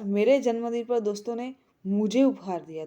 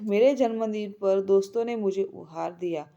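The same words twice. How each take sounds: First: The stress is on मुझे. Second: The stress is on दोस्तों.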